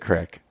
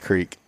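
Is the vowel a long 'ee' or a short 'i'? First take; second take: short i; long ee. First: The vowel is a short 'i' sound. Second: The vowel is a long 'ee' sound. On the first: This is the local spoken way. "it is a crick" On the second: This is how it reads from the spelling. "If you read it, it's creek"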